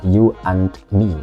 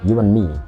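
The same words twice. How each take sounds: First: The d sound in and is pronounced. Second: The d sound in and is dropped. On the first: The speaker calls it wrong. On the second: The speaker calls it right.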